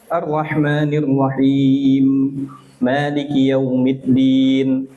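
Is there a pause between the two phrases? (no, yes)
yes. There is a clear stop between the phrases. The speaker calls it right. "Kalau mau diwakaf, diwakaf"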